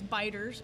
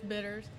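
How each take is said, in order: First: The first syllable sounds like 'bite'. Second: The first syllable sounds like 'bit'. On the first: The speaker calls it wrong. "a lot of people pronounce it as Biters" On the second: The speaker calls it right. "we're not Biters around here, it's Bitters"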